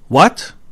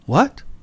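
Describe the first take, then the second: First: It is said in a blunt, rude-sounding tone. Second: It is said in a soft, polite-sounding tone. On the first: The speaker sounds impatient or dismissive. The speaker calls it wrong. "This could be considered a little rude" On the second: The speaker simply asks for a repeat. The speaker calls it right. "This is not rude"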